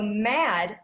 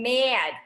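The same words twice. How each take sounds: First: The vowel is a plain open a. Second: The vowel is tightened toward an e glide.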